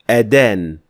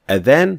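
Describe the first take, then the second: First: The middle consonant is a d sound. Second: The middle consonant is a soft th sound. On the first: It means to condemn. The speaker calls it wrong. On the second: It means the call to prayer. The speaker calls it right.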